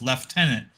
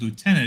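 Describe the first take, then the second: First: It is pronounced the British way, lef-tenant. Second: It is pronounced the American way, loo-tenant. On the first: The speaker calls it wrong. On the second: The speaker calls it right.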